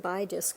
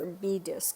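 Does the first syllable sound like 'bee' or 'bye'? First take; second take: bye; bee. First: The first syllable sounds like 'bye'. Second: The first syllable sounds like 'bee'. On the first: The speaker calls it wrong. "I keep pronouncing it bi disc because it's spelled B I" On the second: The speaker calls it right. "it's actually pronounced B disc"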